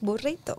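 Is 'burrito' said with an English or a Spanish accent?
Spanish. The word is said with a Spanish accent. The speaker calls it right. "I try to pronounce it as much as I can in the Spanish accent"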